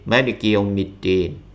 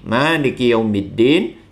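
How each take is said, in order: First: The first vowel of Maliki is kept short. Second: The first vowel of Maliki is drawn out long. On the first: This is the other reading tradition's version. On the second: This is one reading tradition's version.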